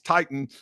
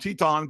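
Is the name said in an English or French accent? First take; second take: English; French. First: The name is said with plain English vowels. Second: The name is said with French-style vowels. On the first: "his name's Titan" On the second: "I call him Teton"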